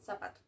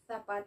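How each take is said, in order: First: It is said with a Latin American accent. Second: It is said with a Spain Spanish accent. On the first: "in Latin American" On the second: "in Spanish from Spain"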